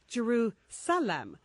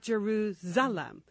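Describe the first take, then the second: First: The middle consonant is a hissing s sound. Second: The middle consonant is a buzzing z sound. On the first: The speaker calls it right. "Please see that it's an S, not a Z, hence Jerusalem" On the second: The speaker calls it wrong. "not Jerusalem"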